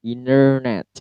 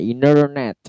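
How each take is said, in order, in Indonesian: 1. Aksen Amerika: t dihilangkan dan r jelas. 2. Aksen Amerika: t dihilangkan dan r jelas.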